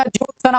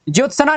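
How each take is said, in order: First: ज्योत्सना as jyot-sna; joined half consonants. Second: ज्योत्सना as jyot-sa-na; extra vowel. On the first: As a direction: run t and s into na in ज्योत्सना. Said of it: "आधा आधा". (ज्योत्सना, त और स आधे) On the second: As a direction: put an a after s in ज्योत्सना. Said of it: "नहीं होता". (ज्योत्सना, स पूरा) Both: Shown as a demonstration.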